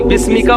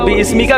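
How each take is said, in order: First: It is said as one smooth word, bismika. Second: An extra 'i' vowel is sounded before 'smika'. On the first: The speaker calls it right. "अलिफ लिखा जाएगा, पढ़ा नहीं जाएगा" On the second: The speaker calls it wrong. "इस्मिका गलत है"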